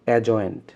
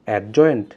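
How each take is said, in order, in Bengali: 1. j এর আগে d ধ্বনিটি নীরব থাকে। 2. j এর আগে d ধ্বনিটি উচ্চারিত হয়। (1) "ডি এর উচ্চারণ হয় না" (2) "উচ্চারণটা কি অ্যাডজয়েন্ট, না"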